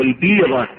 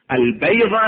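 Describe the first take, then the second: First: البيضة said "al-beeda", long "ee"; kasra on البيضة. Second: البيضة said "al-bayda", open "ay"; fatha on البيضة. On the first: Teacher asks which vowelling is correct, kasra on البيضة. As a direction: close the vowel after ب in البيضة to "ee". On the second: Teacher asks which vowelling is correct, fatha on البيضة. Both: Shown as a demonstration. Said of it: "بفتح الباء لو بكسر الباء".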